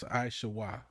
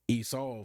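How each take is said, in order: First: The name is said with three syllables. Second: The name is said with two syllables. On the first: The speaker calls it right. "That ain't how it's pronounced. It's Aishawa" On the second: The speaker calls it wrong. "they're gonna say Esau"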